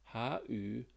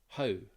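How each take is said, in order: First: The two words are said separately. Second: The two words merge into one syllable.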